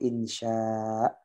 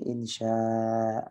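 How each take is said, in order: First: The word ends abruptly without a lengthened vowel. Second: The word ends with a lengthened final vowel. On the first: The word carries dhammah tanwin. "insya'un membacanya insya" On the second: The word carries fathah tanwin. "Kalau udah fathah tanwin insya"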